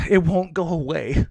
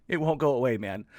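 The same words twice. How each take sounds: First: Weary, sighing complaint; exasperated sigh. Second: Said in the usual way. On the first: Real, not acted. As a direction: sigh it out, fed up.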